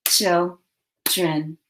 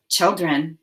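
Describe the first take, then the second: First: Put-on "Children" broken in two with a long pause; split into syllables. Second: Said in the usual way. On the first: Shown as a demonstration. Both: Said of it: "Now say the syllables in children".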